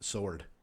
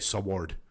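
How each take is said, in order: First: The W is silent, said like 'sord'. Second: The W is sounded, said like 'swoard'. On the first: "Why is there a W in the word sword" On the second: "if you're not supposed to say sword"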